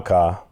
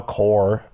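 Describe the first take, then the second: First: "car" as open "cah"; Chicago pronunciation. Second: "car" rounded to "cor", with R; mock standard pronunciation. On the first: Host showing his Chicago way, "car" as open "cah". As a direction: say "car" with a wide "ah" and little R. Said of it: "I, I drive a car". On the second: Host rejecting the formal way, "car" rounded toward "cor". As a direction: say "car" like "core". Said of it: "I don't drive a car". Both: Shown as a demonstration.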